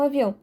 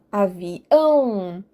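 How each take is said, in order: First: Said in the usual way. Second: Avião very slow, final ÃO stretched long and strong; stress on ÃO. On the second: Shown as a demonstration. Teacher showing students the emphasis in avião, long stressed ÃO. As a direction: hold and swell the ão ending of avião. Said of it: "É o ão que eu dou ênfase".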